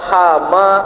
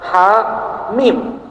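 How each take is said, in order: First: It is read as one joined word. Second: It is read as separate letter names. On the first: The speaker calls it wrong. "Tidak kita baca hama" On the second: The speaker calls it right. "tapi ha mim"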